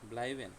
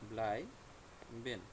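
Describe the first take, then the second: First: The word is said smoothly as one unit. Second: The word is split with a break between syllables.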